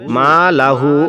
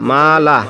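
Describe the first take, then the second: First: The final h is followed by a short u. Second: The word ends on a bare h sound. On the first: "হা উল্টা পেশ হু" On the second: "আরদি সাকিন ধরে পড়তে হবে"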